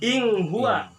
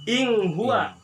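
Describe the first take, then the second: First: The n is hidden with a nasal sound. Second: The same.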